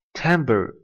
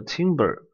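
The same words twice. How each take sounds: First: Timbre with first syllable like "tam"; correct pronunciation. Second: Timber with first syllable like "tim"; misreading of timbre. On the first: Teacher models the word for students, timbre said correctly as TAM-ber. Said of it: "千万不要把它读错啊". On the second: Teacher warns against misreading timbre, timber said as TIM-ber. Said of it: "千万不要把它读错啊，读成了timber". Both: Shown as a demonstration.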